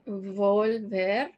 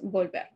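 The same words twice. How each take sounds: First: The first consonant is a buzzing English-style V. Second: The first consonant sounds like a soft B. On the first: The speaker calls it wrong. "Notice that I'm not saying volver" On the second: The speaker calls it right. "the V sounds like a B in Spanish. So it's volver"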